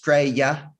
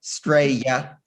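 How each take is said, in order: First: The word is shortened to two syllables. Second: The word is shortened to two syllables.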